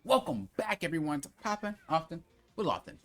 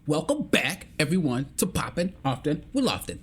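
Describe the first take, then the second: First: It is said flat, with little energy. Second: It is said excited, in a deeper voice. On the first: The speaker calls it wrong. "it's not welcome back, everyone, to Poppin' Often" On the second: The speaker calls it right. "You need to get excited, put some bass in your voice"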